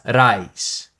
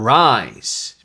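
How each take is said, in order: First: The R is rolled or tapped. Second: The R is a soft American R.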